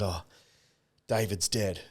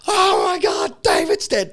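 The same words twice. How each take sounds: First: Low, soft, subdued retelling; imitated sadness. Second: High, loud panicked cry; imitated freak-out. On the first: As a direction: break the news quietly, sadly. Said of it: "She came out sad". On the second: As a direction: shriek the news in mock panic. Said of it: "So she starts freaking out".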